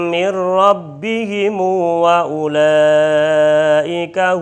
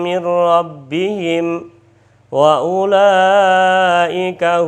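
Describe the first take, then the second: First: The final m is extended with a long u. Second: The final m of rabbihim is closed, unvoweled.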